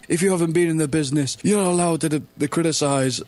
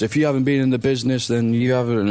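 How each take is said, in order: First: High, sneering parody of a pro wrestler; lampooning the insider brush-off, pitched up; mock wrestler scolding. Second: A hint of a sneering insider; lightly lampoon the insider brush-off; mock wrestler scolding. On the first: Fan mocks wrestlers who say outsiders can't criticize, high sneering parody. Mocking wrestlers' stock line. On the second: Fan quotes wrestler Trevor Lee's tweet, lightly sneering parody. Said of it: "he said one of those".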